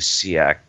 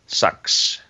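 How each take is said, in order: First: It is said with two syllables, like see-ax. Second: It is said with one syllable, like sax. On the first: The speaker calls it wrong. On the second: The speaker calls it right.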